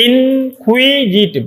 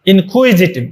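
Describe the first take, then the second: First: ইনকুইজিটিভ very slow and high, each syllable stretched. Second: Said in the usual way. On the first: Shown as a demonstration. Teacher showing it has four syllables, syllable-by-syllable. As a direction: draw out ইন, কুই, জি, টিভ as separate beats, pitched up. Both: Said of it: "চার syllable বিশিষ্ট".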